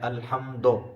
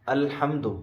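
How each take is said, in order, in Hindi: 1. अंतिम स्वर 'o' जैसा है। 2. अंतिम स्वर छोटा 'u' जैसा है। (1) "ज़ेर की शक्ल बिगाड़ दी" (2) "जो कि असल है"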